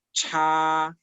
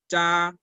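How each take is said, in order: First: "cha" as aspirated Mandarin ch; slow demo of "cha", breath after the ch; ch with air. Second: "cha" as Mandarin zha, unaspirated; slow demo of "cha", tight zh onset without breath; zh without air. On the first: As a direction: push a strong puff of air through "cha". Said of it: "mientras que la C H suena cha". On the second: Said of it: "la Z H va a sonar cha sin aire". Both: Shown as a demonstration.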